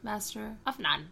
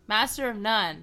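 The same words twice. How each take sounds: First: It is said at a normal, quieter volume. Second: It is said louder than before.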